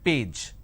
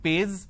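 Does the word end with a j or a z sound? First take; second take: j; z. First: The word ends with a j sound. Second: The word ends with a z sound. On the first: The speaker calls it right. "it is page" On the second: The speaker calls it wrong. "replace the J with a Z"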